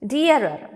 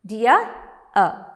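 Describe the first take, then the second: First: Said in the usual way. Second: "Dear-er" pulled apart into two beats; syllable by syllable. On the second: Shown as a demonstration. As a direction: say "Dear", pause, then "er". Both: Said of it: "There are two syllables".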